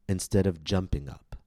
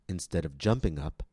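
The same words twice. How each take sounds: No difference in how they are said.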